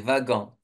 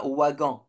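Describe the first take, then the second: First: The word begins with a V sound. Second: The word begins with a W sound. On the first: The speaker calls it right. "le W, ça se prononce V" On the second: The speaker calls it wrong. "on prononce pas wagon"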